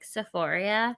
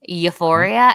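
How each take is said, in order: First: The word begins with an S sound. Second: The word begins with a Y sound. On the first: The speaker calls it wrong. "they can't even pronounce it right" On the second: The speaker calls it right. "they meant to say euphoria"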